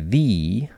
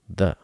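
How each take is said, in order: First: The vowel is full and clear. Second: The vowel is reduced to a schwa. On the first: The speaker calls it wrong. "I didn't say the" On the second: The speaker calls it right. "I said the"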